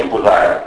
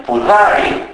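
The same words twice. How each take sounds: First: "πουδάρι" as pudar, without final i; dropped final i. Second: "πουδάρι" with u first and a full final i; narrowing only. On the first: Lecturer giving the form Naousa avoids, "πουδάρι" without final i. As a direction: drop the last vowel of "πουδάρι". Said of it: "όχι πουδάρι". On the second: Lecturer showing Naousa speech, "πουδάρι" with final i kept. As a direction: keep the end of "πουδάρι", raise o to u. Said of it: "Εκεί έχουμε μόνο στένωση". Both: Shown as a demonstration.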